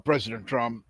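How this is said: It is said in a put-on imitated voice.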